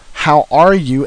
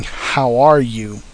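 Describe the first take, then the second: First: Said in the usual way. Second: Flat, slow, lower robotic delivery; slow flat machine-like voice with no inflection; mechanical voice. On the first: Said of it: "human inflection that the digital, uh, recorders sometimes miss". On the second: Shown as a demonstration. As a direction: say it like a processed, lifeless recording. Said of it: "kinda mechanicalize any voice".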